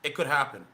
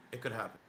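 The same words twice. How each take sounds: First: Said in the usual way. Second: Much softer, under the breath; quiet muttered repeat; quiet aside. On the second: Real, not acted. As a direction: murmur it again to yourself. Repeats line to himself.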